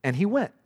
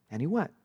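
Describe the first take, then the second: First: Said in the usual way. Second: Quiet repeat. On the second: Shown as a demonstration. Pastor repeating the phrase to the congregation, hushed. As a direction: say it again softly to land it. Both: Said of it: "All you read is that little phrase".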